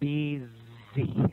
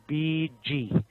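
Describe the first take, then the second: First: The middle consonant is a z sound. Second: The middle consonant is a j sound. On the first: The speaker calls it right. "It's BZ" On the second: The speaker calls it wrong. "You're using J as in John. Okay. It's not BG"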